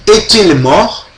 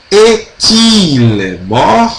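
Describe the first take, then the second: First: "Est-il mort" run together as one linked question; joined up. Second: "est-il mort" very slowly, stretching the linked T into "il"; drawn-out linking. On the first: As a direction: link the T of "Est-il mort" smoothly, less stretched. ("Est-il mort" juntando tudo, com o T ligado ao I) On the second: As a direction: show the T joining the I in "est-il mort", syllables drawn out. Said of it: "Então, T com I". ("est-il mort" bem devagar, ligando o T ao I) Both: Shown as a demonstration.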